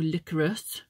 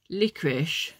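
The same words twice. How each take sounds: First: Licorice said as LIK-er-iss, ending in s; licoriss. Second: Licorice said as LIK-rish, ending in sh; licorish. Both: Shown as a demonstration. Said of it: "however you pronounce it".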